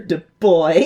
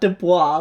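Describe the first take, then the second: First: The name is said with an English-sounding ending. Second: The name is said with a French-sounding ending. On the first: The speaker calls it right. "his name was pronounced Du Bois" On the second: The speaker calls it wrong. "not Dubois, like I mispronounced earlier"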